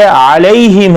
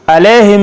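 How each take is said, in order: First: अलैहिम slowly with a "la-ee" glide; correct Quranic pronunciation. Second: अलैहिम quicker, with a flat "e", a-leh-him; no glide in अलैहिम; mispronunciation demo. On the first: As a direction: stretch the diphthong in अलैहिम. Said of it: "ये अलैहिम है". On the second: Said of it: "अलैहिम नहीं है". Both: Shown as a demonstration.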